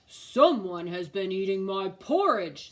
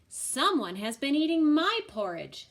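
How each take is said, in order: First: It is said in a great big voice. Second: It is said in a middle-sized voice.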